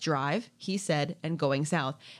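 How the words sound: It is phrased as three separate titles.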